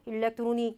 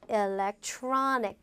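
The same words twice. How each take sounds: First: All syllables get equal, flat stress. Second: One syllable is clearly stressed over the others. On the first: The speaker calls it wrong. "이렇게 똑같이 발음하잖아요" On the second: The speaker calls it right. "이렇게 강세 넣어서 발음하시면 좋죠"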